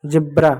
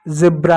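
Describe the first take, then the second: First: जेब्रा starting on English j; wrong j pronunciation. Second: जेब्रा starting on a buzzing z; correct z pronunciation. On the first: Teacher showing students' usual mistake, j version. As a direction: say जेब्रा as "jebra". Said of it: "जेब्रा नहीं होता है". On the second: Teacher asking students what they write, z version. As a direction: say जेब्रा as "zebra". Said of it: "जेब्रा होता है". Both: Shown as a demonstration.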